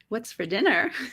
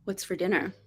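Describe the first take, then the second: First: It is said in a playful tone. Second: It is said in an annoyed tone.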